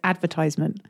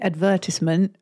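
First: It is said with an American English pronunciation. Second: It is said with a British English pronunciation. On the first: "the American is advertisement" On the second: "The English pronunciation is meant to be advertisement"

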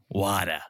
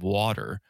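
First: The word is said in a Boston accent. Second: The word is said in a general American accent. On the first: "That's the Boston accent" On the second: "Instead of water"

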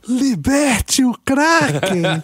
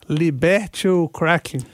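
First: It is said with strong, dramatic emphasis. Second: It is said plainly, without extra emphasis.

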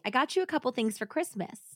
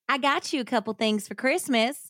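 First: It is read in a plain, unaccented voice. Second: It is read in a put-on hillbilly accent.

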